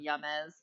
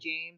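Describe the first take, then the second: First: The name begins with a Y sound. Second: The name begins with a J sound. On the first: The name is changed playfully for fun. "I called him Yamez" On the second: This is the name's usual form. "I knew a guy named James"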